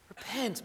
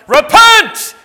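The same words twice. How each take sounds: First: The word is said in a relaxed, casual tone. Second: The word is said in a stern, forceful tone. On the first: It is a friendly suggestion. "Or were you like, hey, repent, man?" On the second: It is an authoritative command. "were you like"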